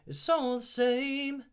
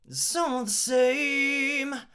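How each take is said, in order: First: It is said in a normal talking voice. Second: It is said louder with strong breath support. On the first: "I'm using my talking voice really" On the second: "When you kind of lean into it a little bit more"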